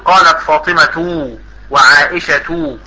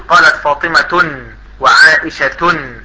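First: The names end in a plain vowel. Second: The names end with an added -n sound. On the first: The speaker calls it right. "تقول" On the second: The speaker calls it wrong. "لا تقول"

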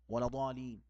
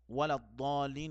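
First: The doubled consonant is made short. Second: The doubled consonant is held long. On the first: The speaker calls it wrong. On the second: The speaker calls it right.

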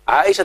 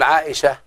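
First: The word ends in a voweled t sound. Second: The word ends in a soft h sound. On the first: "وان كانت متحركه" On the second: "بتخليها ها"

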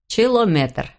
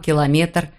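First: The word begins with a 'ch' sound. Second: The word begins with a 'k' sound. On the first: The speaker calls it wrong. "У него получалось" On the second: The speaker calls it right. "не мог правильно произносить слова"

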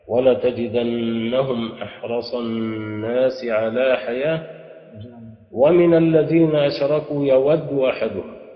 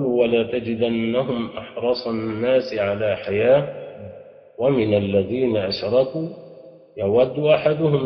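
First: It pauses only after حياة, running أشركوا on. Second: It pauses after حياة and again after أشركوا. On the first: The following clause attaches to the idolaters. "تقول إن نافعا وقف على حياة" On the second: The following clause stands as a separate statement. "أو أن تقف الوقفين"

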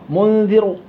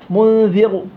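The two takes are said the same way.

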